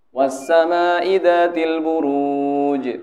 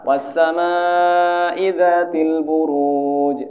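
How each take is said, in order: First: The long vowel is held only briefly. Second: The long vowel is held for longer. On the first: The speaker calls it wrong. "misalkan harusnya empat harokat jadi dua" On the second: The speaker calls it right. "Kan harusnya empat"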